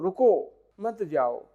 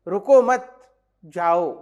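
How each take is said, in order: First: The pause comes after the first word. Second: The pause comes after the second word.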